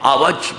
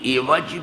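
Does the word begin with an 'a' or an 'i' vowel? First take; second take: a; i. First: The first vowel is a short 'a'. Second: The first vowel is a short 'i'. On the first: "फतहे के साथ भी" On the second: "कसरे के साथ भी"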